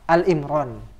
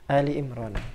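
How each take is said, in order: First: The first word is a single syllable, Al. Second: The first word has two syllables, Ali. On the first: The speaker calls it wrong. "Jangan salah baca, karena beberapa santri itu ada yang salah baca" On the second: The speaker calls it right. "Padahal enggak. Di situ adalah Ali Imran"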